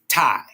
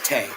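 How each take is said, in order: First: The name rhymes with 'die'. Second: The name rhymes with 'day'. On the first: The speaker calls it right. "it's actually tie. That's how you say it" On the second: The speaker calls it wrong. "I keep saying Tay"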